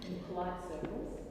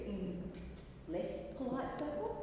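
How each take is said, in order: First: Lower, restrained delivery; politely understated. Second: Pointed contrast. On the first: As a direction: say it discreetly, pitched down. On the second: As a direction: lift "circles" up at the end. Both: Acted. Contrasts polite with less polite.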